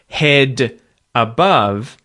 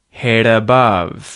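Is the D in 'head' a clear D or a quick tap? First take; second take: clear D; tap. First: The D is said clearly, words kept apart. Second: The D becomes a quick tap, words run together. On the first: "instead of hearing the words as head above" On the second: "a more fluid head above"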